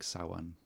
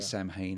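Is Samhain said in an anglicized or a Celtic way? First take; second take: Celtic; anglicized. First: It is said in a Celtic, Gaelic-style way. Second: It is said in an anglicized, English-style way. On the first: This follows the word's Celtic origin. The speaker calls it right. "but it's Celtic. It's more like Samhain" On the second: This is how the film says it. The speaker calls it wrong. "they say Samhain in the movie"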